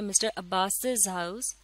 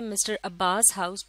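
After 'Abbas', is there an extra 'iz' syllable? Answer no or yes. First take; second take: yes; no. First: Abbas ends with an extra iz syllable. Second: Abbas ends without an extra iz syllable. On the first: The speaker calls it right. "हम इस तरह से बोलते हैं ... आखिर में भी एक एस की साउंड है" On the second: The speaker calls it wrong. "हम इस तरह से नहीं कहते"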